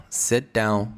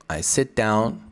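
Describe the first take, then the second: First: "sit down" slow, T and D run together; linked sit down. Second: Said in the usual way. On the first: Shown as a demonstration. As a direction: blend "sit down" slowly as "setdown". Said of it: "connected speech". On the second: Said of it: "I sit down and look out".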